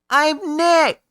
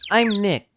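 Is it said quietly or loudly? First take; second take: loudly; quietly. First: It is said loudly. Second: It is said quietly.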